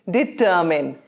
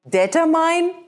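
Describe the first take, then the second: First: The stress is on the second syllable. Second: The stress is on the last syllable. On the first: The speaker calls it right. "the emphasis is on ter" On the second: The speaker calls it wrong. "it's not mine"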